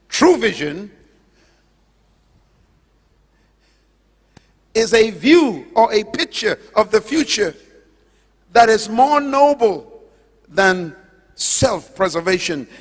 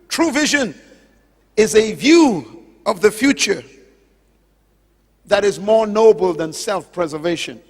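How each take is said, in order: First: It is said slowly and deliberately. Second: It is said at a normal pace.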